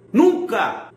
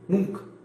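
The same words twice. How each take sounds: First: Exclaimed "Nunca", stressed and falling; emphatic repeat. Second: Said in the usual way. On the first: Shown as a demonstration. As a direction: hit "Nunca!" hard, as a final verdict.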